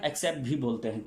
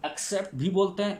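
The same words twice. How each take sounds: First: एक्सेप्ट said with an e, "eksept"; the other pronunciation. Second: एक्सेप्ट said first with a short a, "aksept"; one pronunciation. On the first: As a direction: start एक्सेप्ट on a clear e sound. (एक्सेप्ट को "एक्सेप्ट" बोलें) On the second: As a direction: start एक्सेप्ट on an open a sound. (एक्सेप्ट को "अक्सेप्ट" बोलें) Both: Shown as a demonstration.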